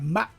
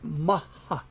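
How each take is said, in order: First: The word ends in a final consonant sound. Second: The word ends in an open vowel sound. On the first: This is the English way of saying it. "but Mach" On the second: This is the usual Japanese way of saying it. "we said Maha"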